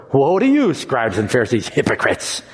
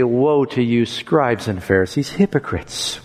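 First: Hard, falling denunciation; condemning. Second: Softening to a broken near-whisper; tearful. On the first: Jesus denouncing the Pharisees, stern. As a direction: pronounce judgment on them. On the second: Jesus lamenting over the Pharisees, tearful. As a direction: grieve over them as you say it. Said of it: "with tears in his voice". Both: Shown as a demonstration.

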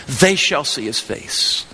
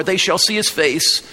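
First: They shall see his face, slowed right down with They stressed; slow repeat that lands hard on They; slow emphasis on They. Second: Said in the usual way. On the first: Shown as a demonstration. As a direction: lean on They and draw the line out slowly.

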